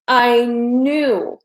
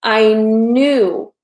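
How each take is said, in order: Both takes have the same delivery.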